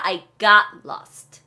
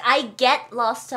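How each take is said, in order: First: "got" said clearly with weight; slow, careful "got" in "I got lost"; past tense got. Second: "get" said as the mistaken form; the wrong version, leaning on "get"; wrong present tense. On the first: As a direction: correct past form, stressing "got". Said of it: "과거로 쓰셔야 됩니다". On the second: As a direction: stress falls on "get" in "I get lost". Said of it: "아니에요". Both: Shown as a demonstration.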